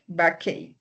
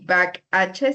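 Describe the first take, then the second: First: The ending sounds like 'ake', with a k. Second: The ending sounds like the letter H. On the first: The speaker calls it right. "sino headache, backache" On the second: The speaker calls it wrong. "ni back H"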